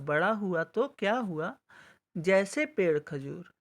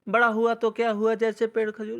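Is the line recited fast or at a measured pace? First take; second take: measured; fast. First: It is recited at measured pace with pause. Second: It is recited very fast without stopping.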